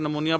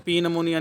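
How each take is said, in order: First: The word begins directly with an N sound. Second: The word begins with a spoken P sound. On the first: The speaker calls it right. "इसको नमोनिया पढ़ना है, पी इसमें silent है" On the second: The speaker calls it wrong. "इसको पी नमोनिया नहीं पढ़ना है"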